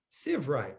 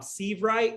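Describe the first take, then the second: First: The first syllable rhymes with 'live'. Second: The first syllable does not rhyme with 'live'. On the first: The speaker calls it right. "just think uh, live right" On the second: The speaker calls it wrong. "everybody says Seavright for Bob"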